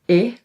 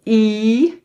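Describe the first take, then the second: First: I very short, as in "bit"; brief Dutch short sound for I; short vowel. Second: I held long as "ie"; long Dutch "ie" for I; long vowel. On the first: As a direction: cut I off quickly. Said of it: "we can also pronounce them short". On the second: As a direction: draw out I like "ee" with a rise. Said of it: "they have the long pronunciation". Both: Shown as a demonstration.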